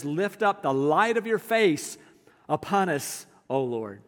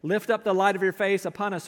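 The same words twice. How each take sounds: First: Slow prayerful reading. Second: Said in the usual way. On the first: Shown as a demonstration. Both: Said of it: "He described it beautifully".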